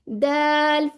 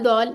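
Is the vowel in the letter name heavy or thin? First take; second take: thin; heavy. First: The vowel is thin, light and open. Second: The vowel is heavy, full and rounded. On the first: The speaker calls it right. "बारीक है, बारीक रहने दें" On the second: The speaker calls it wrong. "दौल दौल नहीं करना"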